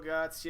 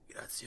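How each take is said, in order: First: It is said in the speaker's normal voice. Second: It is said in a put-on character voice.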